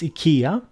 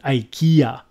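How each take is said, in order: First: It is said with the original non-English pronunciation. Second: It is said with the usual English pronunciation. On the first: The speaker calls it right. "It's IKEA" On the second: The speaker calls it wrong. "you English people butchering it and calling it IKEA"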